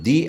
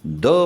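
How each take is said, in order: First: The word is pronounced with a long 'ee' vowel. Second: The word is pronounced with a short 'uh' vowel. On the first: "स्वराने सुरू झालेलं आहे त्याच्या आधी येणारा द हा दी म्हटला जातो" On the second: "व्यंजनाने सुरू होणाऱ्या नामाच्या आधी ... द म्हणून उच्चारला जातो"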